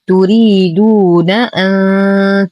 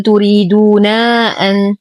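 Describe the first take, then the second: First: Slow recited تريدون أن, short ن before the hamza; unstretched join. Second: تريدون أن with the final ن dragged into a long naa; wrongly stretched vowel. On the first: Teacher shows the correct joining to students, short final vowel. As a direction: cut the last ن of تريدون short into أن. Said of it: "أننا لم نمطط الحرف". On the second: Teacher shows what we do not say, stretched final vowel. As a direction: overstretch the end of تريدون before أن. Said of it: "لا نقول". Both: Shown as a demonstration.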